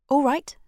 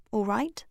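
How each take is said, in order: First: "All right" raised and louder, snapped out fast; quick agreement. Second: Said in the usual way. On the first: A narrator's reading. Daisy agreeing to the pact quickly, "All right" said fast. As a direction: jump in with "All right" at once. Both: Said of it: "Daisy said quickly".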